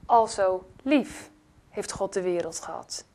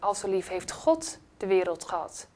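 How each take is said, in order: First: The word "lief" carries the main stress. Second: The word "God" carries the main stress. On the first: It was love, not anger. "Er staat niet, al zo toornig was God" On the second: It matters who it is that loved. "God, wie is hij?"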